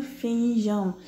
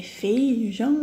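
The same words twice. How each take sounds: First: "feijão" with the E and I drawn apart; separated vowels. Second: "feijão" with FEI as one syllable; joined vowels. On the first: Teacher asking pupils if it is separated, vowels pulled apart. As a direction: stretch "feijão" as fe-i-jão. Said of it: "ou ele é separado". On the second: Teacher asking pupils if it is joined, said as one FEI. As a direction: keep the "ei" together in "feijão". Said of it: "Ele é junto ou ele é separado". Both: Shown as a demonstration.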